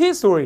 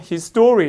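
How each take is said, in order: First: "his story" with HIS punched, the rest falling; stress on HIS. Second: "his story" with STO punched and stretched; stress on STORY. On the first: Teacher showing the noun history, front stress. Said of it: "이거는 강세가 앞에 있어요". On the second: Teacher showing the possessive phrase, stress on story. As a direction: hit "story" in "his story", keep "his" light. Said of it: "소유격이라 강세가 여기 와". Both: Shown as a demonstration.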